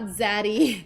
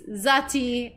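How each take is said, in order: First: The middle consonant is a soft D-like flap. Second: The middle consonant is a crisp T sound. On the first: The speaker calls it wrong. "not Zaddy. ... we don't pronounce the T's very much" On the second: The speaker calls it right. "it's Zati"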